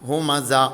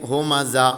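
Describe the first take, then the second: No difference in how they are said.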